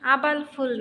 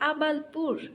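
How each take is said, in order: First: The last syllable starts with an 'f' sound. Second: The last syllable starts with a 'p' sound. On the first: The speaker calls it wrong. "আবালফুল না" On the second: The speaker calls it right. "বলো আবালপুর"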